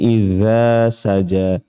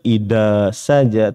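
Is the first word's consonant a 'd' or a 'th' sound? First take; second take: th; d. First: The first word has a soft 'th' sound. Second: The first word has a plain 'd' sound. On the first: The speaker calls it right. "tapi idza saja" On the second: The speaker calls it wrong. "ini pun bukan huruf dal, tidak dibaca ida saja"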